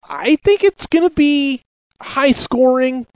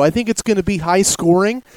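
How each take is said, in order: First: Emphatic. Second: Said in the usual way. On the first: Real, not acted. Repeats prediction, second with emphasis.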